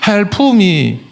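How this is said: The p is released with a puff of breath. The breathing out keeps the speaker afloat. "한국 사람은 콩글리시 발음이 있잖아"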